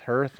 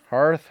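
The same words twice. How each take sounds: First: "hearth" rhymed with "earth"; HURTH pronunciation. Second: "Hearth" with the AR of "heart"; HARTH pronunciation. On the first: Husband unsure of the word, "hearth" as HURTH. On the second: Husband tries out both options, "Hearth" as HARTH. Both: Shown as a demonstration. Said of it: "Is it hearth or hearth?".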